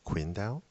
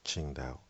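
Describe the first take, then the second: First: It is said as English speakers read the spelling. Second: It is said with the native Chinese pronunciation. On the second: "the Chinese or Asians who know the city name, they'll pronounce it as"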